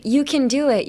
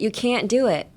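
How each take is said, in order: First: CAN short and unstressed, like "kən", before DO IT; reduced can. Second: CAN'T with a full vowel and held t before DO IT. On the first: Teacher contrasting can with can't, light short can. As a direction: pass lightly over can toward do. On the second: Teacher contrasting can't with can, weighted stopped can't. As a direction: give can't weight, then stop before do. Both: Shown as a demonstration. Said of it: "And the difference is".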